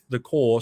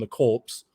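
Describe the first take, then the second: First: The word ends in an r sound, no ps. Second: The word ends with a ps sound. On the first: The speaker calls it right. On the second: The speaker calls it wrong.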